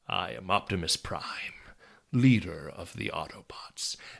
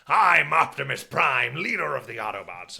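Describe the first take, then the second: First: It is said quietly with firm conviction. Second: It is said big and loud.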